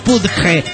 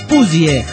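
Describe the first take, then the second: First: The word ends with a j-like sound. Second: The word ends with an ee-like sound. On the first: The speaker calls it wrong. "No es pudge" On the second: The speaker calls it right. "Es puzie"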